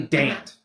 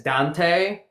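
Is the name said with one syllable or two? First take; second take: one; two. First: The name is said with one syllable. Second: The name is said with two syllables. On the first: The speaker calls it right. "actually Dant" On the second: The speaker calls it wrong. "it would look like it would be said as Dante"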